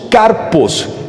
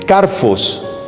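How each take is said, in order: First: The middle consonant is a p sound. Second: The middle consonant is an f sound.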